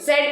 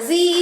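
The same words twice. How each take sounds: First: The letter is said the British way, zed. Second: The letter is said the American way, zee.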